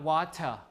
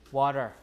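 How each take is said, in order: First: The middle T is a full stop. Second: The middle T is a quick R-like flap. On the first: The speaker calls it wrong. "So it's not water" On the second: The speaker calls it right. "So it becomes like an R"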